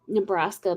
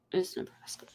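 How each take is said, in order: First: Said in the usual way. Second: Dry whispered punchline. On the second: Real, not acted. Teasing her home state to a friend, whispered. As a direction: whisper it as a wry aside. Joking about Nebraska jazz.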